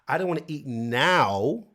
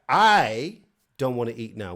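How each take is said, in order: First: The stress falls on the word now. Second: The stress falls on the word I. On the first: The speaker might want to eat later instead. "which is okay, but is it later you want to eat?" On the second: It is the speaker in particular who does not want to eat. "which is like me"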